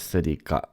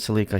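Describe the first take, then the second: First: It is said the Japanese way. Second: It is said the Canadian way.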